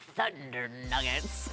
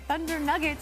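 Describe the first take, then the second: First: It is said loudly with dramatic announcer energy. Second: It is said flatly with ordinary energy. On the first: The speaker calls it right. "you have to say it like that" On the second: The speaker calls it wrong. "You can't just say"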